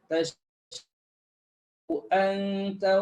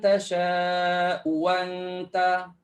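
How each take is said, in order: First: Both glottal stops are clearly pronounced. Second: The second glottal stop becomes a w sound. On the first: "Kita baca hafs kena jelaslah bunyi kedua-dua hamzah tu" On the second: "Jadi uwa keluar waw"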